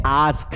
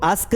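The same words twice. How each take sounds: First: "ask" with a long 'aa', as in 'aask'; correct long-vowel pronunciation. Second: "ask" with a short 'a', like 'usk'; short-vowel mispronunciation. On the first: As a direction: stretch the vowel of "ask" to a slow 'aah'. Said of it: "इसका जो pronunciation है वो है". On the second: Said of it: "इसको ask नहीं पढ़ना है". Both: Shown as a demonstration.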